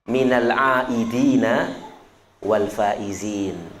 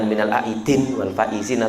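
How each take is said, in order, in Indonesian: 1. Kata kedua berakhir dengan bunyi 'dina' penuh. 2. Kata kedua berakhir dengan 'din', vokalnya dihilangkan. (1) "Harus fasih ya"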